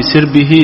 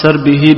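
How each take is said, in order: First: Short i after the s in سربه; kasra on the sin. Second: Short a after the s in سربه; fatha on the sin. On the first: Student reading the contrasting example, سربه as sir-bi-hi. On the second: Student reading the book's example, سربه as sar-bi-hi. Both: Shown as a demonstration. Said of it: "بالفتح".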